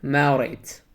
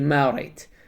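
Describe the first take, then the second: Both takes have the same delivery.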